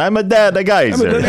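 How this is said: It is said in a strong Italian accent.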